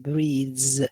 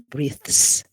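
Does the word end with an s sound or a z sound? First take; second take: z; s. First: The word ends with a voiced z sound. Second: The word ends with a voiceless s sound. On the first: The speaker calls it right. "we say breathes. Z, z" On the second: The speaker calls it wrong. "We don't say breathes"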